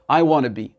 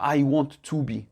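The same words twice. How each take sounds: First: The word 'to' is shortened and reduced. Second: The word 'to' is said fully and clearly. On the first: The speaker calls it right. "utilisez la forme un peu plus courte" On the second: The speaker calls it wrong. "Et non pas"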